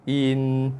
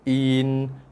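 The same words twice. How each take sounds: Both takes have the same delivery.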